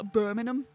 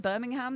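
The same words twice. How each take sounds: First: It is said with the British pronunciation. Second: It is said with the American pronunciation. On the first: The city in the United Kingdom is meant. "In the U K, it's Birmingham" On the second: The city in the United States is meant. "they probably mean like the one in, is it Alabama?"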